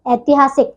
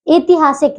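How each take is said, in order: First: Said in the usual way. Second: ऐतिहासिक starting with a close "e", "etihaasik"; mispronounced ऐतिहासिक. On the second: Shown as a demonstration. Teacher shows pupils the error, close "e" opening ऐतिहासिक. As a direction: begin ऐतिहासिक on ए, not ऐ. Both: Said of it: "नहीं".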